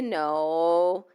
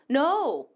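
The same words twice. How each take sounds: First: It sounds soft and open to persuasion. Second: It sounds firm, flat and final. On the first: The refusal could still become a yes. "you have space to push the person to make no yes" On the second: The refusal is final. "that's a straight no"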